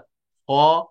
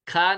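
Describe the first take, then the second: First: The letter is said heavy, with a full mouth. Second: The letter is said light, with a thin mouth. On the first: The speaker calls it right. "इनको हमें पुर पढ़ना है, मोटा पढ़ना है, full mouth के साथ पढ़ना है" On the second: The speaker calls it wrong. "खा नहीं पढ़ना है"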